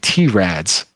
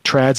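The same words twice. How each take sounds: First: The letter name T comes before rads. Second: The name is one blended syllable, trads. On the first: The speaker calls it right. "Trads is actually T-Rads" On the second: The speaker calls it wrong. "I've just been corrected"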